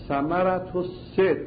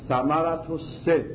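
Both takes have the same delivery.

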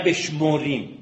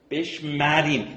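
First: The second syllable is said with another vowel. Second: The second syllable is said with an a vowel. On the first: The speaker calls it wrong. "نه" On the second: The speaker calls it right. "این فعلا در مضارع به امر باید با فتحه تلفظ کنیم"

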